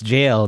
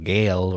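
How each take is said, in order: First: It starts with a j sound and rhymes with pale. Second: It starts with a hard g and rhymes with pale. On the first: The speaker calls it right. "it's jail" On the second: The speaker calls it wrong. "or gale"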